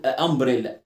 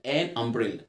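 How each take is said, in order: First: "آه امبريلا" with a bare vowel clashing into the next; wrong article. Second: Low, soft "ان امبريلا" with a clear n; correct article. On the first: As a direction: say "آه" as a separate vowel before "امبريلا". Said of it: "ما ينفعش اقول". (نطق "آه امبريلا" غلط من غير نون) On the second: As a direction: link the n of "ان" into "امبريلا". Correct take after the wrong one. (نطق "ان امبريلا" بنون واضحة) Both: Shown as a demonstration.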